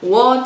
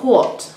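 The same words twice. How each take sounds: First: It starts with a plain 'w' sound. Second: It starts with a strongly breathy 'hw' sound. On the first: This is how the English teacher said it. "pero decía what o why" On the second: This is the Irish way of saying it. "Ellas decían, what. ... esa W H tan marcada"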